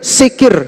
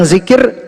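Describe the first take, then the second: First: The word begins with an s sound. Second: The word begins with a z sound. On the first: "Lebih cenderung ke sa" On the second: "Bilang zikir"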